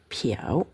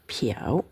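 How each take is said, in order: First: It is said with a dipping third tone. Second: The same.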